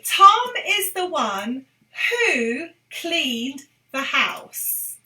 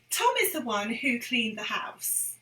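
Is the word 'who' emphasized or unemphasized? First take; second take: emphasized; unemphasized. First: The word 'who' is given strong emphasis. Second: The word 'who' gets no special emphasis. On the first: "I'm emphasising it in this lesson" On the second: "when we're speaking normally"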